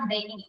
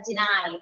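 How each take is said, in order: First: The word is said like 'denny', ending in 'ee'. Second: The word is said 'dih-nye', ending in 'eye'. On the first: The speaker calls it wrong. "It's not deny" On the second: The speaker calls it right. "it's a deny"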